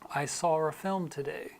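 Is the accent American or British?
British. British accent, an R inserted between saw and a. "in a British accent, they would often put an R between those two"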